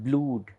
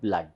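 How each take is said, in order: First: The vowel is a long oo sound. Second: The vowel is short, like in cut. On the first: The speaker calls it wrong. "it is not blood" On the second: The speaker calls it right. "but it is pronounced as blood"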